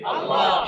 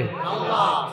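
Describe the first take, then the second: First: Unvoiced congregation reply; whispered answer. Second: Said in the usual way. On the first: Real, not acted. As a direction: answer in a breath. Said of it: "দিবে কে?". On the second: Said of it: "শিখাইয়া দেয় কে?".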